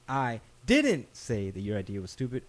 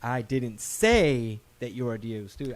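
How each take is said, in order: First: The second word, didn't, is stressed. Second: The third word, say, is stressed.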